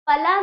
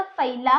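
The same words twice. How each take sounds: First: फला said with a short a, no ai; wrong pronunciation. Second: फैला with a clear ai in the first syllable; correct pronunciation. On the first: Teacher showing children the wrong way, फला without ai. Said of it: "फला नहीं होता". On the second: Teacher giving children the right sound, फैला with ai. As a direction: open the ai in फैला. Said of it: "फैला होता है". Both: Shown as a demonstration.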